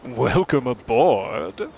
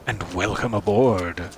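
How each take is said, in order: First: It sounds warm and friendly. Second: It sounds dark and sinister.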